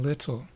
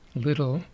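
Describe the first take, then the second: First: It is said with a British pronunciation. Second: It is said with an American pronunciation. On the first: "I'm being a careful English teacher, so I'm saying little, kind of British style there" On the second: "Americans say little"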